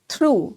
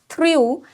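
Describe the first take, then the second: First: The vowel is a plain 'oo' sound. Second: The vowel is a 'yoo' sound. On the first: The speaker calls it right. "it is threw" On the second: The speaker calls it wrong. "this one is not threw"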